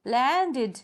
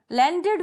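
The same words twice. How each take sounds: First: लैंडेड stretched into lan-ded; two-syllable demo. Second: Said in the usual way. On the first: Shown as a demonstration. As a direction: sound out both beats of लैंडेड. (लैंडेड को लैन-डेड, दो हिस्सों में बोलें) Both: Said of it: "जब pronounce करते हैं".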